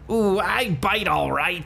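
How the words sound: It is said in a put-on accent.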